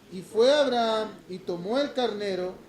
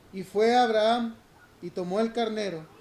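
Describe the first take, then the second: Both takes have the same delivery.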